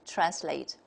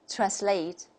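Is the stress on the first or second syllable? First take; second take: first; second. First: The stress is on the first syllable. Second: The stress is on the second syllable. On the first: "the opposite" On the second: "the stress is on the second syllable"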